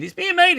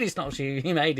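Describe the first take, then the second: First: Top-of-the-range loud squeal; wildly overexcited mock good news; mock announcement. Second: Mock retraction. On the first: Mimics back-and-forth film announcements. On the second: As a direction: settle down into a plainer denial. Mimics the contradicting announcement.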